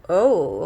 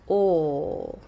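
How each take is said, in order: First: The vowel sounds like the English oh. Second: The vowel is a pure, steady sound. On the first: The speaker calls it wrong. "it's not oh, okay? It's not English" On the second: The speaker calls it right. "Let's try to make the most pure sound"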